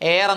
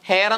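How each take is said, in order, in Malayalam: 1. ഈ വാക്ക് നേരിട്ട് സ്വരാക്ഷരത്തിലാണ് തുടങ്ങുന്നത്. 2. ഈ വാക്ക് ഹ ശബ്ദത്തിലാണ് തുടങ്ങുന്നത്. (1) "എയർ എന്നാണ് ഉച്ചരിക്കുന്നത്" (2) "ഹ എന്ന് ഉച്ചരിക്കരുത്"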